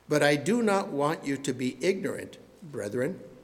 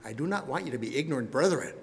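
First: There is a pause before 'brethren'. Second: There is no pause before 'brethren'.

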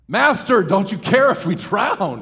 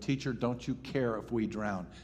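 First: It is said in a panicked, desperate tone. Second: It is read in a calm, plain tone.

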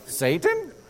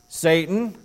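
First: It is said in a prim, mocking character voice. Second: It is said in an ordinary, plain voice.

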